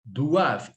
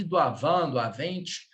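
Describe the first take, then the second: First: Doivent as "dwav", ENT left silent; correct pronunciation. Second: Doavant, doavente with the ending wrongly voiced; wrong pronunciation. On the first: Teacher shows where to stop, "doivent" ending on V. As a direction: end "doivent" cleanly on the V. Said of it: "Você vai pronunciar até aqui". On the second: Teacher warns class against "doavant, doavente", ending voiced. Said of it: "Nada de". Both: Shown as a demonstration.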